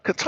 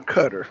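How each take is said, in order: First: Qatar as kuh-TAR; Qatar with a long stressed "tar" ending; first pronunciation. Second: Qatar as CUTTER; Qatar stressed on the first syllable, like "cutter"; alternative pronunciation. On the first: Streamer weighing two versions, Qatar said kuh-TAR. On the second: Streamer weighing two versions, Qatar said CUTTER. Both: Shown as a demonstration. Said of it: "is it Qatar or Qatar?".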